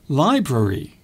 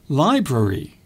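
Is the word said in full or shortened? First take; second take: full; full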